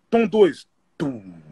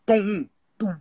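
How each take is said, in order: First: Vocal floor-ish tom; imitated lower tom. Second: Vocal tom-tom hit; imitated tom. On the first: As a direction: hum the second tom deeper. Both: Shown as a demonstration. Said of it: "Eu vou fazer pra vocês".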